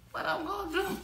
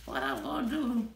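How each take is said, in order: First: What I'm gonna do? pitched well higher; excited higher repeat of What I'm gonna do?; higher and giddy. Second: Said in the usual way. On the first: Real, not acted. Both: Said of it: "repeated with a higher pitch".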